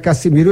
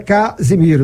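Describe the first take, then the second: First: The middle consonant is a hissing s sound. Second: The middle consonant is a buzzing z sound. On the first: The speaker calls it wrong. "não é Cassimiro" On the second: The speaker calls it right. "meu nome é Casimiro"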